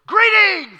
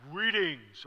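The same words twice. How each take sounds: First: Much higher and much louder burst on "Greetings"; jump-scare greeting, yelled; surprise shout. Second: Said in the usual way. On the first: Shown as a demonstration. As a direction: blast "Greetings" out to startle her. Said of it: "like he's gonna surprise her". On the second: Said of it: "practicing with it".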